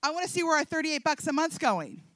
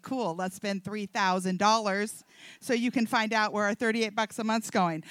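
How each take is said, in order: First: Said in the usual way. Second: Low imitation of her husband; lower, deadpan mimicry of a husband; husband's reply. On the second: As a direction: echo her demand back as the husband, pitched down. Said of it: "That's what he did. He's like".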